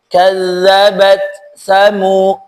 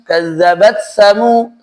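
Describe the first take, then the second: First: The t sound is pronounced clearly and separately. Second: The t sound blends into the following sound. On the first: The speaker calls it right. "harus dibaca dengan tegas, izhar" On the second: The speaker calls it wrong. "Seolah-olah huruf itu melebur"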